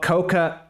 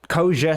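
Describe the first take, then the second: First: The middle consonant is a hard k sound. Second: The middle consonant is a soft j sound. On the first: The speaker calls it wrong. "not Koka" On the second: The speaker calls it right. "that's pronounced as Koja"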